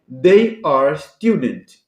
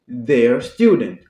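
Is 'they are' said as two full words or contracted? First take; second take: full; contracted. First: They and are are said as two full words. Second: They and are are squeezed into one syllable.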